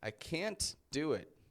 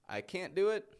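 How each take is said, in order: First: The T in can't is pronounced, sounding intense. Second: The T in can't is dropped, sounding relaxed. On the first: The speaker is impatient or frustrated. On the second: It is not a big deal.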